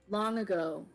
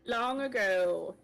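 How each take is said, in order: First: It is said in his normal voice. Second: It is said in Balazar's character voice.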